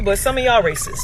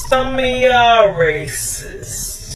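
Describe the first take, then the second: First: Said in the usual way. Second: "Some of y'all racist" stretched out slowly, every word leaned on; slow emphatic repeat. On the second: Real, not acted. Repeating the jab at Miami locals, slow and emphatic. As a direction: drag the repeat out to make it land.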